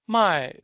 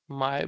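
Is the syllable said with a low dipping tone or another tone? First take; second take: another tone; dipping. First: The syllable is not said with a dipping tone. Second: The syllable is said with a low dipping tone. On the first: It means to sell. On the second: It means to buy.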